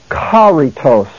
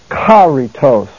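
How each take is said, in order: No difference in how they are said.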